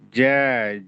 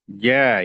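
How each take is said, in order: First: The j is made with the tongue tip. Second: The j is made with the tongue middle. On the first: The speaker calls it wrong. "Jangan sampai kita menuturkannya dengan di ujung lidah" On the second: The speaker calls it right. "bagian tengah lidah dengan tengah langit-langit mulut atas"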